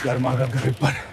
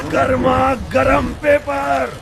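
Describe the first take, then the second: First: Low, soft, deflated; dejected vendor's call. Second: High, slow hawker's singsong; drawn-out vendor's call. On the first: Newspaper boy finding no buyers, giving up dejectedly. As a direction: let the hawker's cry sag. Hawker gives up, nobody buys. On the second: Newspaper boy advertising hot news, drawn-out street cry. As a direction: stretch each word out for passers-by. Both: Acted.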